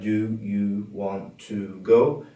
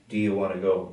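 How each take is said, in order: First: Each vowel is said full and strong. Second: The vowels are weakened to a short uh. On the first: The speaker calls it wrong. "Instead of" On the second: The speaker calls it right. "That's how a lot of native English"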